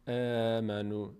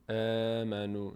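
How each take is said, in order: No difference in how they are said.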